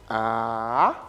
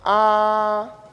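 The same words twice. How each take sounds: First: The pitch falls and then rises again. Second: The pitch stays level throughout. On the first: "ça descend et ça remonte" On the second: "un ton qui est plat"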